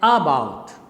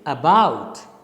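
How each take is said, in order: First: The stress is on the first syllable. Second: The stress is on the second syllable. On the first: The speaker calls it wrong. "You can't say about. About is wrong" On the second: The speaker calls it right. "The correct pronunciation is about"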